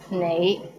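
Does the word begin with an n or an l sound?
n. The word begins with an n sound.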